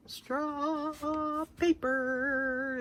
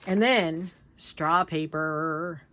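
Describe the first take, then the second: First: Slow, soft, high "Straw paper" stretched out; savoring, drawn out. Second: Said in the usual way. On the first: Real, not acted. Showing viewers new straw paper, "Straw paper" slow, soft and savored.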